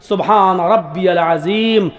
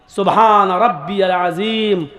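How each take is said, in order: The two takes are said the same way.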